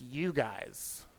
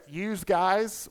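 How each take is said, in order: First: Said in the usual way. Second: "yous guys" with a drawn-out S on "yous"; extra S. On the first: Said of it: "Why not just you guys?". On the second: Shown as a demonstration. Comic questions the Northern plural, stressing the extra S in "yous". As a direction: say "yous guys" slowly, higher, ending "yous" in an S. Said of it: "why is the extra S in there?".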